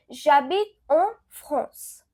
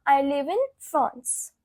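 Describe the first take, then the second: First: Slow, careful French model sentence; slow French demo. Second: Said in the usual way. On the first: Shown as a demonstration. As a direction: repeat J'habite en France slowly for learners. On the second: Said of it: "So it will become".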